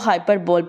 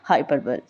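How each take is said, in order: First: The word ends with a long 'bowl' sound. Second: The word ends with a short 'bull' sound. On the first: The speaker calls it wrong. "जो कि ये इसकी गलत pronunciation है" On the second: The speaker calls it right. "हाइपरबल is the British accent"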